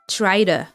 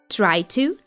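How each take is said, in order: First: The two words blend into a shorter form. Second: Both words are said clearly and fully.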